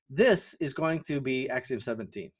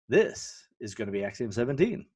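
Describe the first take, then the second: First: It is said in a flat, dull way. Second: It is said with lively, engaging intonation.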